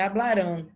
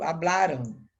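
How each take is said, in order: First: Hablarão with a nasal Portuguese "ão" ending; the mistaken form hablarão, ending in a nasal "ão"; wrong Portuguese ending. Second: Hablaram with a clear Spanish "-an" ending; the right form Hablaram, ending in "-an"; correct Spanish ending. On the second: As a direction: end Hablaram in a plain "-an", not a nasal "ão". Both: Shown as a demonstration. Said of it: "Preste atenção que não é hablarão".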